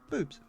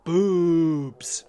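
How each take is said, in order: First: It is said in a plain, ordinary voice. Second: It is said in a groaning zombie voice. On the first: "it could have just been boobs" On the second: "I was putting some zombie on it"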